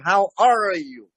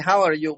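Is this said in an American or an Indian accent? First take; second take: Indian; American. First: It is said in an Indian English accent. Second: It is said in an American English accent. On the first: "But in India, they say" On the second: "Here you say"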